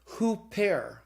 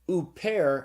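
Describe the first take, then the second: First: The word starts with an h sound. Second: The word starts directly with the vowel. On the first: The word has a rough breathing mark. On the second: The word has no rough breathing mark.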